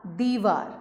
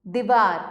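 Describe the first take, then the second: First: Said in the usual way. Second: दीवार with a short first vowel, "di-vaar"; दीवार said quickly as "dih-VAAR"; misspelt short i. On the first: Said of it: "सामने शुद्ध करके". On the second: Shown as a demonstration. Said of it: "अशुद्ध शब्द लिखे हुए".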